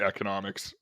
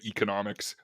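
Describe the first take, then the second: First: It uses the non-British pronunciation. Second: It uses the British pronunciation. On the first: "I say economics" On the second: "British friends say economics"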